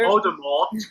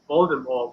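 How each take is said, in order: First: The final t is pronounced. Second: The final t is silent.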